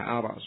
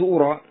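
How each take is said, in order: First: The word begins with an a vowel. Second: The word begins with a u vowel. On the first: The verb is active: I think. "Tapi lebih enak Allah fathah ara" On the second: The verb is passive: I was made to think. "Kalau dibaca ura, ... Mabnil majhul berarti"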